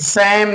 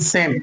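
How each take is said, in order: First: The vowel is a short 'a' sound. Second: The vowel is a long 'ay' sound. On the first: The speaker calls it wrong. "सैम नहीं" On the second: The speaker calls it right.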